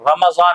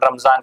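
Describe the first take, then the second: First: The middle consonant is an emphatic d sound. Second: The middle consonant is a plain z sound. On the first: The speaker calls it right. "Quran में इसका नाम रमजान आया है" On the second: The speaker calls it wrong. "लोग जो है अक्सर इसको रमजान रमजान कहते हैं"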